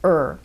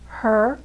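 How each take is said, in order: First: The word is reduced, the h dropped. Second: The word is said in full with h.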